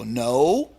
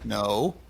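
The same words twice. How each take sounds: First: The word is said more crisply and firmly. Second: The word is said calmly and evenly.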